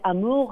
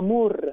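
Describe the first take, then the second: First: The r sound is soft and smooth. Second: The r sound is strongly rolled. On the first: "δεν θέλει να είναι amour" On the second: "έτσι θέλει εκείνη το ρο, όπως να τονίζει"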